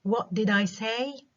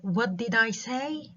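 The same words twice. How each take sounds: First: Higher, stress on What, rising; repetition question again. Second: Higher, slow, rising on I; repetition question. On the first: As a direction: echo it back with What stressed. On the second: Teacher demonstrating a repetition question, rising. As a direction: echo the question back, rising. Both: Shown as a demonstration. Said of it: "Repetition question".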